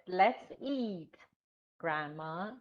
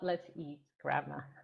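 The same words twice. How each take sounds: First: There is a pause after "eat". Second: There is no pause after "eat". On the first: Grandma is being invited to eat. The speaker calls it right. "That's right. That's it" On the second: Grandma is the thing being eaten. The speaker calls it wrong. "Not not"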